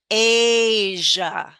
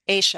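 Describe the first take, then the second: First: The middle sound is a voiced buzzing zh. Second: The middle sound is a quiet voiceless sh. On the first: "keep your voice going" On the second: "S H is good enough"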